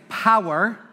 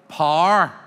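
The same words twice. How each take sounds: First: "power" in two syllables, "pow-er"; standard power. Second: "power" flattened to one syllable, "par"; Northern Irish power. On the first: Teacher quotes the audience's way, two-syllable "power". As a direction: slowly open out "power" as "pow-uh". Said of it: "You would say". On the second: Teacher shows local speech, Northern Irish "par" for power. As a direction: say "power" slowly as "parr". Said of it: "In Northern Ireland, they say". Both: Shown as a demonstration.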